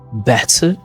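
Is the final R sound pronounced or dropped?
pronounced. The final R sound is pronounced. "instead of better"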